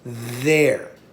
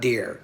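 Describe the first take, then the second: First: The word starts with a soft th sound. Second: The word starts with a hard d sound. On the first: The speaker calls it right. "It's there" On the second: The speaker calls it wrong. "It's not dare"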